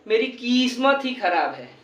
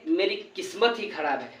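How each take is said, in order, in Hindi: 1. किस्मत का पहला स्वर खिंचा हुआ है। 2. किस्मत का पहला स्वर छोटा है। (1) "हम ये नहीं बोलेंगे" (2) "अरे मेरी किस्मत ही खराब है"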